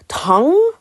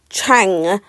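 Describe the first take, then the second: First: The word begins with a t sound. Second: The word begins with a ch sound. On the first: The speaker calls it right. "when actually it's Tang" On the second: The speaker calls it wrong. "I've got like a C H at the beginning of my T's"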